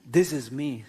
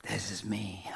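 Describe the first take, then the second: First: Proud boast with a laugh, a touch louder; puffed-up self with a laugh. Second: Secret whisper of the self; hushed, mocking whisper of the proud self. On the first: Acted. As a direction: show off your big self, chuckling. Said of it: "See how big I am". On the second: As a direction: whisper it like a confession. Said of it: "Because we are proud of this one".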